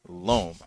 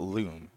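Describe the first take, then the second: First: "Loam" with a long round o, like loan; "Loam" rhymes with home, not loom; loam said right. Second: "loom" with a long oo, like room; "loom" as in a weaving loom; loom said wrong. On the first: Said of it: "It's not loom. It's loam". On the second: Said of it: "It's not loom". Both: Shown as a demonstration.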